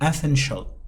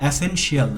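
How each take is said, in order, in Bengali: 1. শেষ অংশটি একটি শব্দাংশে উচ্চারিত হয়, shul। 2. শেষ অংশটি দুটি শব্দাংশে উচ্চারিত হয়, shee-al। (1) "আপনি বলবেন এসেনশিয়াল। শিয়াল না বলে শল উচ্চারিত করতে হবে" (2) "এটা এসেনশিয়াল না"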